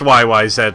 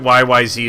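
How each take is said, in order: First: The final letter is said the Canadian way. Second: The final letter is said the non-Canadian way. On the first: The speaker calls it right. "it's pronounced Y Y Z, my friend ... they're Canadian and therefore the proper pronunciation" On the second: The speaker calls it wrong. "Anybody who pronounces it Y Y Z is lying"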